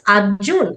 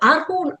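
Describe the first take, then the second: First: The middle consonant is a J sound. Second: The middle consonant is a Y sound. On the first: This is how the family says the name. "para nosotros es Arjun" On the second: This is how the local announcer said the name. "hace el sonido Y"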